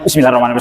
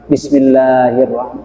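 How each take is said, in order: First: The phrase is recited quickly and carelessly. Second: The phrase is recited slowly and carefully. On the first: The speaker calls it wrong. "Jangan kak itu kayak gitu ya" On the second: The speaker calls it right. "Dibaca yang bagus aja"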